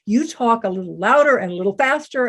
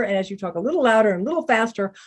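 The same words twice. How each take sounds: First: Said in the usual way. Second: Rattled off at a quick clip; hurried, pressing delivery; faster. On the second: Shown as a demonstration. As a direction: speed up to act out rushing speech.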